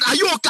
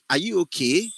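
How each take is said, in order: First: It sounds hard and aggressive, like an angry challenge. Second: It sounds disbelieving, as if asking are you serious. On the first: The character is hostile and insulting. "you're an aggressive person ... the tempo of your voice go hard" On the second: The request seems absurd and hard to believe. "are you serious? Like"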